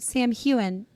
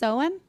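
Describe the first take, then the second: First: The name begins with 'Sam', then 'hain'. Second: The name begins with 'sow', rhyming with cow. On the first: The speaker calls it wrong. "So we said Sam Heughan" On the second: The speaker calls it right. "Apparently, it's Soan"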